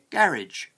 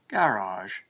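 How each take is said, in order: First: The word ends rhyming with bridge. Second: The word ends with a French-like sound. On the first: The speaker is from the north of Britain. "as if it rhymed with bridge" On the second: The speaker is from the south of England. "as in French"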